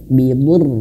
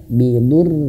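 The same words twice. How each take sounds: The two takes are said the same way.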